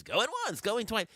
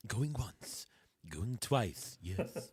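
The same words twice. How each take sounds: First: High, bright auctioneer call. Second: Low, slow auctioneer as George Washington. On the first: Retold or imitated. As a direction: imitate the CBS auction announcer. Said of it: "the guy who talks and says". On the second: Pretend. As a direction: call the bids like an old-time founding father. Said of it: "have the bidding in, like, George Washington's voice".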